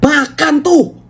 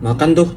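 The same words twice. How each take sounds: First: It sounds satisfied and gloating after being harsh. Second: It sounds like a plain instruction to eat.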